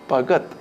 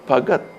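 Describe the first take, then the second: No difference in how they are said.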